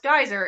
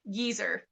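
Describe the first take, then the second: First: The word uses the American pronunciation. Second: The word uses the British pronunciation. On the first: "it's not pronounced geyser" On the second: "in British English, it's pronounced geezer"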